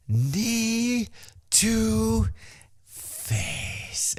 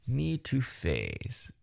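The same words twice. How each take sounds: First: High, word-by-word taunt dropping at FACE; Shinsuke. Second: Soft, very slow taunt; hushed, drawn-out teasing imitation; Shinsuke. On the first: Retold or imitated. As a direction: stretch each word as a teasing imitation. Imitates Shinsuke's slow taunt. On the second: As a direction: run it together quietly and slowly. Repeats the taunt, softly.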